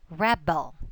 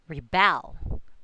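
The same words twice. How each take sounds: First: The stress is on the first syllable. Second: The stress is on the second syllable.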